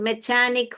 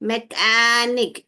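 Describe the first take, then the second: First: The middle consonant is a ch sound. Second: The middle consonant is a k sound. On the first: The speaker calls it wrong. "यह च पढ़ेंगे तो मैचानिक हो जाए" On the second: The speaker calls it right. "ख ख ख ख एनिक"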